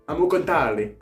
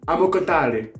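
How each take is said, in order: Both takes have the same delivery.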